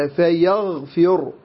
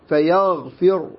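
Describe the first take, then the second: The two takes are said the same way.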